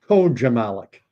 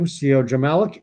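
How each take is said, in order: First: The name begins with a 'ko' sound. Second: The name begins with a 'see-oh' sound. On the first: The speaker calls it right. "I'll say Koja Malik" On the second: The speaker calls it wrong. "Do I pronounce your name well?"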